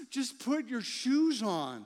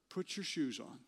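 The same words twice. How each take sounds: First: Slow, pleading, fed-up parent; exasperated plea. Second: Said in the usual way. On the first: Retold or imitated. Dad begging his kids to get ready, exasperated. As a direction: drag it out like a worn-down dad. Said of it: "so frustrating". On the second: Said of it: "it's the phrase".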